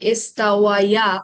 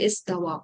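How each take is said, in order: First: The word ends with a separate '-waya' syllable. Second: The word ends smoothly in a long '-wa'. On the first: The speaker calls it wrong. "এটা এভাবে থাকবে না" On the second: The speaker calls it right. "Smooth করে বলে"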